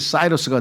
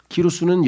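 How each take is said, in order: First: The name begins with an S sound. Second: The name begins with a K sound.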